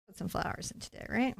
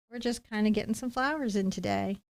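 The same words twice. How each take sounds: First: Soft, unvoiced mock-ASMR whisper. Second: Said in the usual way. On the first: Painter tells viewers about today's flowers, whispering. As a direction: whisper it softly, as a bit. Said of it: "I'm doing an A S M R bit".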